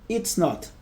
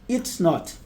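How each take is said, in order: No difference in how they are said.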